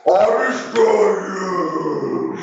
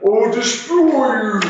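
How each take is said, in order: First: Slow, drawn-out bubbling monster threat. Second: High, bubbling water monster roar. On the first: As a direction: gurgle it like a water creature. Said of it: "in kind of a bubbling voice". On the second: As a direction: gurgle the threat like a water beast. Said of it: "and he goes". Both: Acted.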